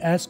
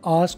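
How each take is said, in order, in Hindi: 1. यह शब्द अमेरिकी लहज़े में बोला गया है। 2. यह शब्द ब्रिटिश लहज़े में बोला गया है। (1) "American में ask होगा" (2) "British में ask होगा"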